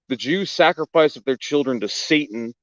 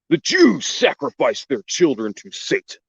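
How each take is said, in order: First: It is read in a plain, ordinary voice. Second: It is read in a theatrical put-on voice.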